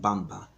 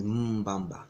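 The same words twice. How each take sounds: First: "Bamba" with a clean opening b; Portuguese pronunciation. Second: "Mbamba" with a long hummed M first; correct pronunciation. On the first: Showing how the Portuguese say it, "Bamba" minus the M. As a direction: say "Bamba" without any M before it. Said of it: "That's how the Portuguese pronounce it". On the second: Correcting the Portuguese form, "Mbamba" with the M held. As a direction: hold the opening M of "Mbamba" before the b. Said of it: "the correct term is Mbamba". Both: Shown as a demonstration.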